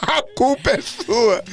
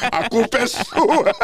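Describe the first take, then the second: First: Drawn-out, teasing accusation; slow mock blame. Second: Slow, laughing accusation; laughing blame. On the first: Host blaming his stage director, slow and teasing. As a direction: lay the blame slowly, half joking. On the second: Retold or imitated. Host blaming his stage director, slow and laughing. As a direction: drag it out through a laugh. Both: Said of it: "ele olhou pra mim e falou".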